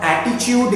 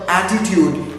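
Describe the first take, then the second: First: The consonant before the last syllable sounds like ch. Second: The consonant before the last syllable sounds like t. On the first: The speaker calls it wrong. "Ch will not come" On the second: The speaker calls it right. "ta will come"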